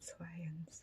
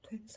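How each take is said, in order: First: Each sound comes out separately, one after another. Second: The sounds are run together in one unit. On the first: "순서대로 어, 차이를 두고 시차를 두고 말하는 것 같이" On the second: "twins 하면 될 거를"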